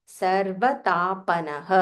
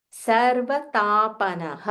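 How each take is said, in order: Both takes have the same delivery.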